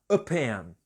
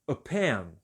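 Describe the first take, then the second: First: The article is said as a weak 'uh'. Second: The same.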